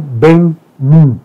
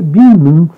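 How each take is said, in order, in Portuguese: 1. O nome é pronunciado como duas palavras separadas. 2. O nome é pronunciado como uma palavra só. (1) "certamente isso falava Ben-Nun" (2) "Todo mundo fala Binum"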